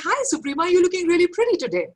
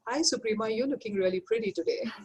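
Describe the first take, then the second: First: The compliment sounds warm and genuinely happy. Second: The compliment sounds grudging and resentful. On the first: The speaker is glad for the friend. "I'm really happy that my friend's looking really, really pretty" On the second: The speaker envies the friend. "I'm possibly jealous"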